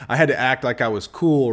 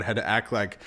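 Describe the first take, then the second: First: "had" punched loud in "I had to act like I was cool"; stress on HAD. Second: Said in the usual way. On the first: Real, not acted. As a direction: lean hard on "had", said much louder. Restarts phrase with more force.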